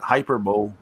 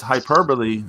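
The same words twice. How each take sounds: First: "hyperbole" as HY-per-bowl, three syllables; mispronunciation. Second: "hyperbole" as hy-PER-buh-lee, four syllables; corrected pronunciation. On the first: Host quoting Jim Ross's mistake, "hyperbole" said HY-per-bowl. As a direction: say "hyperbole" like hyper plus bowl, silent final e. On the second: Host correcting Jim Ross, "hyperbole" said hy-PER-buh-lee. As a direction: stress PER in "hyperbole", ending on a sounded lee. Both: Shown as a demonstration. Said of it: "corrected, uh, Jim Ross's pronunciation".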